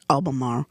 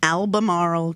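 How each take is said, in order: First: The name is said the way local people say it. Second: The name is said the speaker's own usual way. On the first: The speaker calls it right. "They probably say it Albemarle" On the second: The speaker calls it wrong. "I'm probably pronouncing that wrong"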